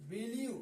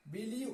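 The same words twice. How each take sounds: The two takes are said the same way.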